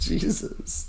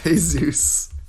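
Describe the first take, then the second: First: The name is said the English way. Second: The name is said the Spanish way. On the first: "If you read it, it says Jesus" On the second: "it's actually pronounced Jesus"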